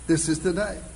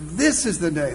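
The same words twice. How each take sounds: First: The word "day" carries the stress. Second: The word "this" carries the stress.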